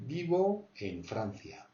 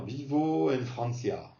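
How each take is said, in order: First: Slow, true Spanish accent on vivo en Francia; real Spanish accent. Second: Vivo en Francia with a French accent; French accent in Spanish. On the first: Teacher correcting French learners, slow genuine Spanish accent. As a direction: say it slowly like a native Spaniard. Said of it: "c'est vraiment l'accent espagnol". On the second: Teacher mimicking most learners, Spanish with French accent. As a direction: say the Spanish as French people would. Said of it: "pour dire à la française". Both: Shown as a demonstration.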